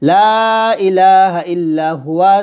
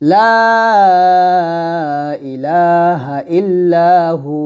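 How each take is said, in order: First: The phrase ends with a full 'huwa'. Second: The phrase ends with a lengthened 'hu'. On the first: The reading continues without stopping. "আছে" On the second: The reader stops at this word. "থামলো হবে"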